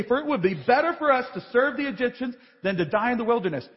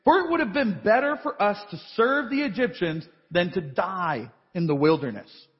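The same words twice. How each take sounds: First: Fast, dismissive run-through of the line; brisk mocking quote. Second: A hint of the whining Israelites, rising at the end; complaining Israelites. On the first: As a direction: rattle it off as the mistake it is. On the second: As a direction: read it as their complaint, lightly. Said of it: "the people of Israel cried out to Yahweh".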